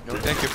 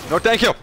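First: Said in the usual way. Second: Higher, louder mock no thank you; loud playful refusal. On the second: Shown as a demonstration. Gamer refusing loudly, mock indignant. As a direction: bellow a cheeky refusal.

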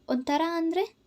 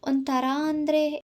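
First: ಅಂದ್ರೆ lifted high at the end, light and teasing; curious question. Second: Slow, drawn-out ಒಂಥರ ಅಂದ್ರೆ, thinking aloud; musing repeat. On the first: Lover gently teasing his girlfriend, high rising question. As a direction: ask it with a bright high rise on ಅಂದ್ರೆ. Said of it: "ಕೇಳಿದ". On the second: Girl repeats his question to herself, slow and pondering. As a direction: stretch ಅಂದ್ರೆ as if searching for words. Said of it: "ಎನ್ನುತ್ತಾ ಯೋಚಿಸಿದವಳು". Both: A narrator's reading.

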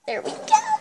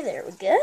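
First: Very high, squeaky voice; squeaky exclamation. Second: Said in the usual way. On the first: Pretend. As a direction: squeak it out in falsetto. Squeaky repeat of his own words.

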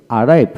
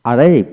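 No difference in how they are said.

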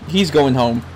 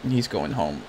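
First: Said in the usual way. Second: He's going home, dropped low and soft; low mocking echo. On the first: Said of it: "repeats it mocking". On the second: Real, not acted. Gamer mocking his character Sarge, low soft echo. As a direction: mutter it back in disbelief. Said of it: "mocking echo".

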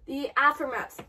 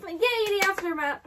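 First: Said in the usual way. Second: Higher, louder little cheer. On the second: Real, not acted. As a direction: cheer the word "aftermath" with a yay. Cheers the same title.

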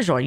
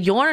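First: Jorn said "ZHORN", J like the s in measure; Jorn with ZH sound. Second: Jorn said "YORN", J like the Y in yes; Jorn with Y sound. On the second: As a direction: say Jorn starting with a Y. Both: Shown as a demonstration. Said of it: "Is it Jorn or Jorn?".

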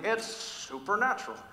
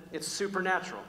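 First: Slow, higher TV-host delivery, drawn out; TV guy impression. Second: Said in the usual way. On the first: Preacher mimics that guy on TV, slow showy voice. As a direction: stretch out "supernatural" like a man on TV. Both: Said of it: "I feel like that guy on T V".

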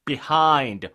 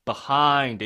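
First: "behind" with "bih" at the start; first variant. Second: "behind" with "buh" at the start; second variant. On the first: Teacher repeating both options, "behind" with "bih". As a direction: say "behind" as bih-HIND, stressed late. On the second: Teacher repeating both options, "behind" with "buh". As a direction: say "behind" as buh-HIND, stressed late. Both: Shown as a demonstration. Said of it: "이렇게 발음돼요".

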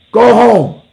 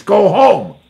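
First: Much higher and louder, shouted; bigger mock shout. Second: Higher, louder put-on voice telling them off; mock shout. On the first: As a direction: yell it the second time. Repeated louder. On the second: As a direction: shoo them away loudly. Mocking dismissal, far voice.

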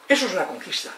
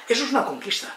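The two takes are said the same way.

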